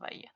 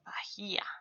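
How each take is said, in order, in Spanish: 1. La h es muda y no se oye. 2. La h se pronuncia con un sonido suave de aire. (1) "nosotros ignoramos, así que solo leemos" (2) "Si leyéramos la H del inglés, leeríamos"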